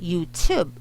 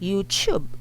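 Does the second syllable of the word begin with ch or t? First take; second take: t; ch. First: The second syllable begins with a popped t sound. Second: The second syllable begins with a ch sound. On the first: The speaker calls it right. "we say YouTube. You just pop the T" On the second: The speaker calls it wrong. "he actually said YouTube like this"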